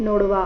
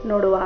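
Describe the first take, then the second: The two takes are said the same way.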